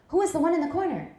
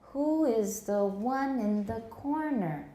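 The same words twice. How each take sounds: First: It is spoken fast. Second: It is spoken slowly. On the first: "Harder to get" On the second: "if you get it when we're saying it slow"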